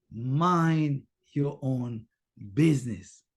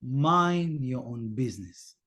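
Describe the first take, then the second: First: Drawn out, lower, each word stretched; slowed inner repetition; very slow mantra. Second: Slow, lower repeated phrase; measured reminder to yourself; slow mantra. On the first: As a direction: stretch "Mind your own" slowly. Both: Shown as a demonstration. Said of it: "repeat it for yourself on and on".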